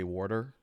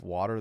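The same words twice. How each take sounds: First: It is said with an 'or' sound, like 'worter'. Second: It is said with the usual standard vowel. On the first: "they say water, like W O R T E R" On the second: "Instead of water"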